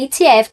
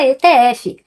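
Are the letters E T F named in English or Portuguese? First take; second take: English; Portuguese. First: The letters are named the English way. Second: The letters are named the Portuguese way. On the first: This is how it is said on the American exchange. "na Bolsa Americana é E T F" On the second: This is how it is said in Brazil. "no Brasil a gente fala E T F"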